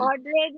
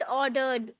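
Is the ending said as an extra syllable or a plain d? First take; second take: extra syllable; plain d. First: The ending is an extra 'ed' syllable. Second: The ending is a plain 'd' sound. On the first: The speaker calls it wrong. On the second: The speaker calls it right.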